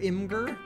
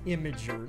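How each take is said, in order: First: The word is said with two syllables. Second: The word is said with three syllables. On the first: The speaker calls it right. "It's Imgur" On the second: The speaker calls it wrong. "Nobody says that"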